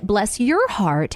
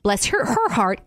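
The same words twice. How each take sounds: First: "your" lightly stressed in "Bless your heart", slow; slow, even "Bless your heart". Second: Slow, pointed "her"; stress on her. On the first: Contrasting "your" with "her" in the saying, slow. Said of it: "has a very different meaning than". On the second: Pointing out she is talked about behind her back, stressing "her". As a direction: lean on "her" in "Bless her, her heart", slow. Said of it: "Clearly, you're saying her". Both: Shown as a demonstration.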